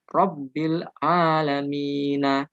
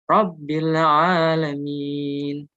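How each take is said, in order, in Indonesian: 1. Frasa ini berakhir dengan vokal akhir -a. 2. Frasa ini berakhir pada konsonan n. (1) "aslinya seperti itu" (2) "kalau waqaf berhenti ayat"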